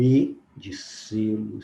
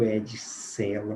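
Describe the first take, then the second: First: "E" fechado, ê, como em "selo". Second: "E" aberto, é, como em "cela". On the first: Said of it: "o E tem uma produção". ("selo" dito devagar, com ê fechado) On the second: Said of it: "o E tem outra produção". ("cela" dito devagar, com é bem aberto) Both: Shown as a demonstration.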